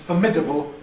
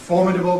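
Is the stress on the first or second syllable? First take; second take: second; first. First: The stress is on the second syllable. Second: The stress is on the first syllable. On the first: "to the second syllable" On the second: "Stress moving from the first syllable"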